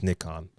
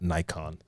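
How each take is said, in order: First: It uses the non-American pronunciation of the name. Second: It uses the American pronunciation of the name. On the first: The speaker calls it right. "it's Nikon" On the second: The speaker calls it wrong. "Americans always say Nikon"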